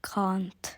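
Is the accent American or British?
British. It is said with a British accent. This is how the teacher says it. "instead of can't"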